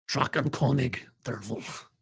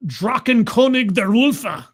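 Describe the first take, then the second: First: Quiet second try at "Drakenkönig der Wolf" in a fake German accent. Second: Loud, slow fake German accent. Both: Shown as a demonstration. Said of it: "I'm doing my best fake German pronunciation".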